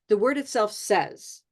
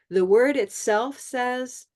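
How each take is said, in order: First: The pitch falls at the end. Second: The pitch stays level or rises slightly at the end. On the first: The sentence is finished. "That would be final if I had a period" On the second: The sentence is not finished yet. "I don't go down. I just leave I leave it kind of neutral or slightly up"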